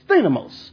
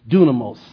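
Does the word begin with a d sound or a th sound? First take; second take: th sound; d sound. First: The word begins with a th sound. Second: The word begins with a d sound. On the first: This is the modern Greek pronunciation. "we use the modern Greek pronunciation, so it's thinamos" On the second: This is the Erasmian pronunciation. "If you're using Erasmus, most of us understand if I say dunamos"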